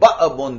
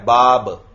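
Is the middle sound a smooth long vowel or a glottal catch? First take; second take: glottal catch; smooth vowel. First: The middle has an abrupt glottal catch. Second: The middle is a smooth, soft long vowel. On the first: "झटके के साथ अदा होता" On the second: "ये अलिफ नरमी से अदा हो रहा है"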